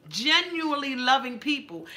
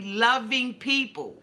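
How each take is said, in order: First: Genuinely lifted high and leaned on; stress on genuinely. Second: Said in the usual way. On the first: Shown as a demonstration. Telling her viewers to feel the word Genuinely, stressed. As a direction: hit Genuinely hard.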